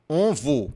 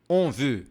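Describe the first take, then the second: First: "veut" said with an O, like "vo"; mispronounced "on veut". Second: "on veut" with closed "on" and pouted "veut"; closed O, pursed lips. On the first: Teacher warning learners of a mistake, "veut" said as "vo". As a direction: say "veut" wrongly as "vo" in "on veut". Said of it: "cuidado pra você não falar". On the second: Teacher modelling French, "veut" said with rounded, pouted lips. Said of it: "o O mais fechado, on, e o biquinho". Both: Shown as a demonstration.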